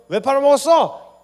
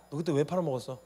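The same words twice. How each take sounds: First: High, slow, full-volume shouted demand; acted outraged yell, drawn out; furious interrogation. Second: Acted reproach at an everyday volume; contained, pointed questioning; restrained interrogation. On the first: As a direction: demand an answer at the top of your voice. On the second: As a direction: ask accusingly without raising the voice. Jesus begins questioning Peter.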